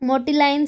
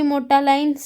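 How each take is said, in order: First: The middle vowel sounds like 'ee'. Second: The middle vowel sounds like 'a'. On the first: "मोटी लाइन से भी हम इसे pronounce कर सकते हैं" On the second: "मोटालाइन से भी हम ... इसे प्रोनाउंस कर सकते हैं"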